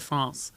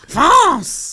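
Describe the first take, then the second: First: The word is said calmly. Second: The word is shouted aggressively.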